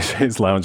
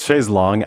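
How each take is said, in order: First: The second word sounds like 'lounge'. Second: The second word sounds like 'long'. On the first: This is the common American form. "a lot of Americans say chaise lounge" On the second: This is the original form, meaning long chair. "It's chaise longue, actually"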